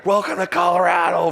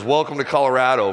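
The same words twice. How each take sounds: First: "Welcome to Colorado" called out high and loud like a jeering crowd; mocking crowd. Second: Said in the usual way. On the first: Crowd taunting the pitcher after a homer, higher jeering call. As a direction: jeer it like fans in the stands. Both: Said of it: "from the crowd".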